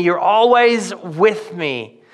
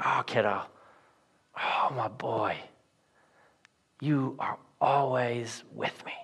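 First: "always" drawn out slowly and leaned on; stress on always. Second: Put-on cradle the words like comforting a child; tender father. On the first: Shown as a demonstration. Preacher correcting the misreading, slow stress on "always". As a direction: land hard on "always", said slow and deliberate. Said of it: "Not, You're always doing good work". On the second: Father soothing his furious son, very soft and tender. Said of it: "He's like".

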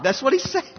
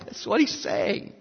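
First: Said in the usual way. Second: Hushed whispered repeat. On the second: Shown as a demonstration. Preacher echoing his point to the congregation, whispered. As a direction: drop to a whisper for the echo.

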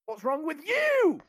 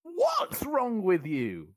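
First: "you" punched high and loud at the end; stress on YOU. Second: "What's" punched higher and louder, slow; slow, hit "What's" hard at the start; stress on WHAT'S. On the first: Final requested take, stress on "you". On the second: Podcaster doing a requested take, stress on "What's". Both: Shown as a demonstration. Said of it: "emphasis on each word in each take".

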